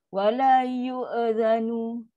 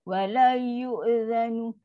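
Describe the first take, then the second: No difference in how they are said.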